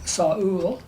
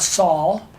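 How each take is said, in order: First: The word is said in two syllables. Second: The word is said in one syllable. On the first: The speaker calls it right. "that's two syllables" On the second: The speaker calls it wrong. "It's not"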